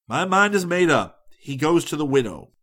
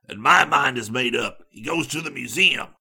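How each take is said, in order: First: Firm, louder and higher declaration; very decided. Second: Sharp answer in a changed character voice; sharp retort. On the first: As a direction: lay it down decidedly, voice lifted. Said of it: "I finally said very decidedly". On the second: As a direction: fire it back sharply, louder at the start. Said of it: "Harris answered sharply". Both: A narrator's reading.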